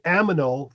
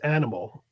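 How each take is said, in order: First: The m and n sounds are swapped. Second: The m and n sounds are in normal order. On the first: The speaker calls it wrong. "I did aminal" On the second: The speaker calls it right. "versus animal"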